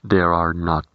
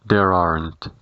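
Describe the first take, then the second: First: Are and not are said as separate words. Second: Are and not merge into one syllable, aren't. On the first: "diremos there are not" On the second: "la contracción there isn't y there aren't"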